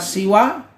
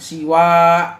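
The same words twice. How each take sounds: First: The final vowel is held short. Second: The final vowel is held long. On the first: "bisa siwa pendek" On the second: "bisa panjang siwa"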